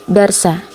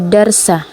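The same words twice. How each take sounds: The two takes are said the same way.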